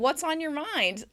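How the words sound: The voice sounds happy and inviting. The asker is inviting the listener to share. "That's a happy intonation"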